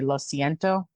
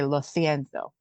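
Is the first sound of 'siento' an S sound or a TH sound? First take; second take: S sound; TH sound. First: The first sound of siento is a plain S. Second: The first sound of siento is a TH. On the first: "in Mexico, you'd say like" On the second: "In Spain, you'd say; like a C or a Z will be like a T H sound"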